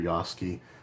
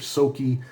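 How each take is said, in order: First: The name begins with a Y sound. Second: The name begins with an S sound. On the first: "or they're Yoski" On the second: "the Y is silent and they're Soki"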